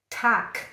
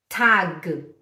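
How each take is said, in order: First: The word ends with a voiceless k sound. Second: The word ends with a voiced g sound. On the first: The speaker calls it right. "É k" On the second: The speaker calls it wrong. "Não é tag"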